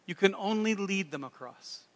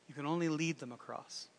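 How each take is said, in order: First: Faint mock French accent; a modest stab at French-accented English; attempted French accent. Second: Said in the usual way. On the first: Napoleon finishing his answer on leading, attempted French accent. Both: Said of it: "That's the best French accent I got".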